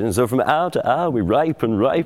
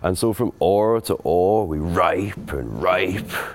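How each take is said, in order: First: Hour is said with the modern vowel. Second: Hour sounds like oar, with no h. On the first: The speaker calls it wrong. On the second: The speaker calls it right.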